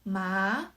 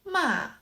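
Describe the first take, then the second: First: The pitch rises from middle to high. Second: The pitch falls from high to low. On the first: "The second tone is" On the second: "The fourth tone"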